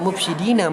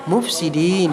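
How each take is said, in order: First: The word ends with a final vowel. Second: The word ends without the final vowel. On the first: The speaker calls it wrong. "tidak dibaca mufsidina" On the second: The speaker calls it right. "melainkan mufsidin di akhir kalimat"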